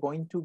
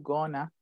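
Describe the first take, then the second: First: Both words are said in full. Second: The words are merged into one reduced word. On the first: "en vez de going to" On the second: "reducciones que hacen"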